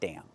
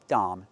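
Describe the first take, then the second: First: It has the short vowel of 'dam'. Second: It has an open 'ah' vowel, as in hot. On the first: The speaker calls it wrong. "not dam" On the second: The speaker calls it right. "We need the ah sound. Like hot and stop"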